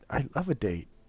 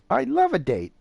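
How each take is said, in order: First: It is said hesitantly, without confidence. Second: It is said firmly, with confidence.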